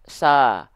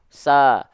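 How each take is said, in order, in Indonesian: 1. Vokalnya adalah 'a' yang tipis dan ringan. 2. Vokalnya adalah 'a' yang tipis dan ringan.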